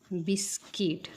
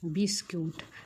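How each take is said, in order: First: The second syllable sounds like 'kit'. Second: The second syllable sounds like 'koot'. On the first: The speaker calls it right. "हे बिस्कुट नाही, तर हे आहे बिस्किट" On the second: The speaker calls it wrong. "आपण काय म्हणतो बघा"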